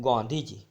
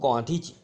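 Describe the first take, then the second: No difference in how they are said.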